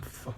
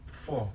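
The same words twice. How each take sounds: First: "f" as "for" cut to a brief "fuh"; reduced weak form. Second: Said in the usual way. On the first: Shown as a demonstration. Learner presenting how "for" reduces, weak form. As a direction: cut "for" down to a short schwa. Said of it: "often convert to the a sound". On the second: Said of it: "the vowel sound in the word often convert".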